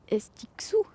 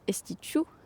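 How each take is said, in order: First: The middle consonant is pronounced as ks. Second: The middle consonant is pronounced as sh. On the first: The speaker calls it wrong. "le X, tu prononces X. Ça serait Estixou. C'est moche" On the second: The speaker calls it right. "Alors que Estichou, c'est mignon"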